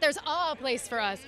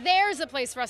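First: The stress is on "a". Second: The stress is on "there's".

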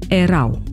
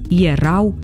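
First: The word begins with a plain 'e' sound. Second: The word begins with a 'ye' sound. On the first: The speaker calls it wrong. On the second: The speaker calls it right. "pronunțăm"

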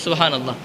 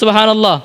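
First: It is said at normal loudness. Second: It is said much louder.

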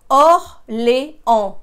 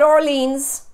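First: It ends on a nasal vowel, no S. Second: It ends with an audible S sound. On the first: The speaker calls it right. "The S is not pronounced" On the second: The speaker calls it wrong. "No, it's not Orleans"

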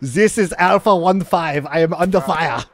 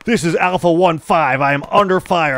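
First: It is spoken with a German accent. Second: It is spoken without a German accent. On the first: The speaker calls it right. "much better, my friend" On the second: The speaker calls it wrong. "That doesn't sound very German to me"

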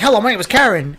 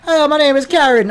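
First: It is said with no particular accent. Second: It is said with a Caribbean accent.

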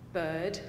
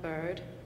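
First: It is said in a British accent. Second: It is said in an American accent. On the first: "Brits say" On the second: "and not bird"

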